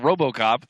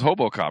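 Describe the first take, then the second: First: The name begins with an R sound. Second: The name begins with an H sound. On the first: "there actually is a fighter called RoboCop" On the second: "when he says his name, he says Hobocop"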